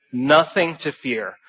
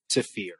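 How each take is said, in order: First: "Nothing to fear" slowed, weight on "Nothing"; deliberate reassurance, stress on "Nothing"; slow emphatic repeat. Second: A quiet weighty close; hushed emphasis. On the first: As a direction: lean into "Nothing" and let it fall. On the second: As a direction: drop almost to a murmur on "to fear". Repeated line, dropped voice. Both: Real, not acted.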